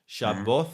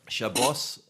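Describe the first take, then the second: First: It is said in Yemenite Hebrew pronunciation. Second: It is said in Ashkenazi Hebrew pronunciation. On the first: "Shabboth would be Yemen"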